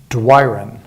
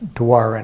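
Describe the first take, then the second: First: The name sounds like the English "do I run." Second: The name is said closer to French. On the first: "Like do I run" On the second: "I pronounce my last name Douarin"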